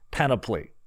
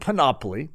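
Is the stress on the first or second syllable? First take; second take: first; second. First: The stress is on the first syllable. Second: The stress is on the second syllable. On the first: "Boy, does that not sound good. That was for those that of you like James" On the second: "that's for those that, you know, are with me on this one"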